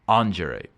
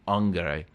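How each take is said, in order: First: It uses a non-classical Latin pronunciation. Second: It uses the classical Latin pronunciation.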